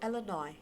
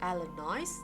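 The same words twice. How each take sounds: First: The word ends without any S sound. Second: The word ends with an audible S sound. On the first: The speaker calls it right. "articulate it as Illinois without the sound of S" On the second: The speaker calls it wrong. "if you articulate it as Illinois with S, that is wrong"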